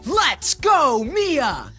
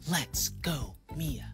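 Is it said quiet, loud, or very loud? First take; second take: very loud; quiet. First: It is shouted as loud as possible. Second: It is said very quietly.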